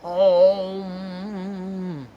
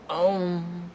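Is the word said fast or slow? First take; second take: slow; fast. First: The word is drawn out slowly. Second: The word is said quickly. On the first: "it has to be slow" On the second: "if you do it faster"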